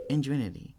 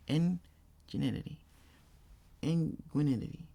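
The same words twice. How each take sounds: First: "Ingenuity." tried again, clearer, falling; careful retry. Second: "Ingenuity." drawn out slowly, syllables mangled; slow garbled retry. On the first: Streamer retrying a word he can't say, carefully. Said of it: "I can't say that word". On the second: Streamer slowly fighting the word, still garbled. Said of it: "How do I say that?". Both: Shown as a demonstration.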